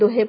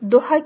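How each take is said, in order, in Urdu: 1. یہ لفظ آگے والے 'e' مصوتے پر ختم ہوتا ہے۔ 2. یہ لفظ کھلے 'a' مصوتے پر ختم ہوتا ہے۔ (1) "امالہ کر کے پڑھتے ہیں" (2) "دوہا کی بجائے"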